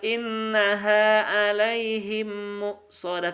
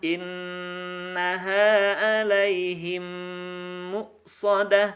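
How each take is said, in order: First: The nasal sound in innaha is rushed and short. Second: The nasal sound in innaha is held long. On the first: The speaker calls it wrong. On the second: The speaker calls it right. "tapi tahan"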